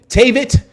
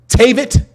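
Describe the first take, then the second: The two takes are said the same way.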